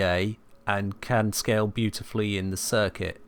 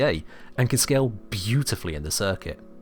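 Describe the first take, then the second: First: It is said flatly with no drive. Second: It is said in a happy, lively tone. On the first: The speaker has no enthusiasm for it. The speaker calls it wrong. "You get some people that speak very flatly" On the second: The speaker is pleased with it. The speaker calls it right. "You know that I am happy with it"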